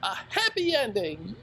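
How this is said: It sounds enthusiastic, like an exclamation.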